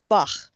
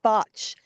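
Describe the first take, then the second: First: The word ends with a throaty kh sound. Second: The word ends with a tch sound. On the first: This is how it is said in Hebrew. "the Hebrew pronunciation is Bach" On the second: This is the standard English pronunciation. "technically, if you want to know the real reason, it's called botch"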